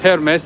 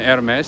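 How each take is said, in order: First: The word begins with a pronounced H sound. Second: The word begins with a silent H. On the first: The speaker calls it wrong. "I tried Hermes" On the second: The speaker calls it right. "so I got it right the second time"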